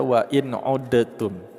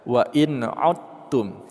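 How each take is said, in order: First: The d is sounded separately with a bounce. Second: The d merges into a doubled t sound. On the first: The speaker calls it wrong. "Jangan dibaca huruf dalnya atau jangan disampai diqalqalahkan" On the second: The speaker calls it right. "Langsung saja kita tasydidkan huruf ta ini"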